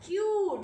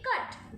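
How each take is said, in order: First: "क्यूट" with a drawn-out "yoo" vowel; long U sound. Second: "कट" said quickly with short "uh"; short U sound. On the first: Teacher shows what adding E does, long sound. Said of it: "इसके बाद हमें वो sound मिल गया". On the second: Teacher shows C U T before E is added, short sound. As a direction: keep the vowel in "कट" brief. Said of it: "जल्दी से बोला गया". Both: Shown as a demonstration.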